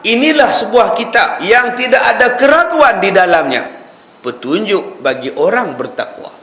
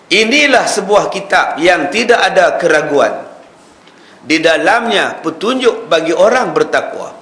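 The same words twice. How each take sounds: First: The pause comes after 'di dalamnya'. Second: The pause comes before 'di dalamnya'.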